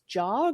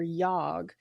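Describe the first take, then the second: First: The word starts with a J sound. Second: The word starts with a Y sound.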